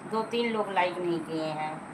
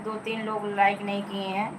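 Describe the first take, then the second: First: Repeated lower and softer, trailing off; quieter repeat. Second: Said in the usual way. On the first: Real, not acted. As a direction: say it again, half to yourself. (धीमे से दोहराना) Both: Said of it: "मैं बार बार चिल्लाती रहती हूँ।".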